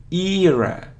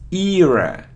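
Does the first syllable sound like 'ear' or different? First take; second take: like ear; like ear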